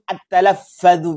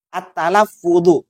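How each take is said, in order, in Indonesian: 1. Vokal setelah dua f itu 'a'. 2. Vokal setelah dua f itu 'u'. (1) "bukan talaffadhu" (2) "Yang betul itu adalah at-talaffudhu"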